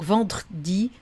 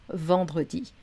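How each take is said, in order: First: The middle e vowel is dropped. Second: The middle e vowel is pronounced. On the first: The speaker calls it wrong. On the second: The speaker calls it right. "on garde notre E"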